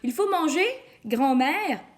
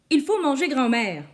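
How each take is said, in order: First: There is a pause before grand-mère. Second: There is no pause before grand-mère.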